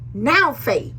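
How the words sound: It is read with strong passion and urgency. Faith means you must act right now. The speaker calls it right. "when you read it with passion"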